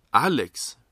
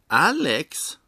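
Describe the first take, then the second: First: Loud, higher, incredulous query; taken aback. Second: High, loud, thrilled cry; ecstatic shout. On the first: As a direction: blurt the name in disbelief. Character hears who replaces him. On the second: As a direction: shout the name, overjoyed. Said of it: "ropar bartendern och hoppar upp och ner av lycka". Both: A narrator's reading.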